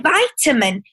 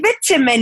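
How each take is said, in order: First: It is said in an American accent. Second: It is said in a South African accent.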